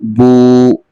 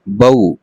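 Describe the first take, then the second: First: The vowel is drawn out and lengthened. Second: The vowel is said quickly and softly. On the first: It turns into a madd letter. The speaker calls it wrong. "इसको ऐसे नहीं पढ़ेंगे" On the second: It is read as a soft leen letter. The speaker calls it right. "थोड़ा जल्दी से पढ़ते हैं और नरमी के साथ पढ़ते हैं"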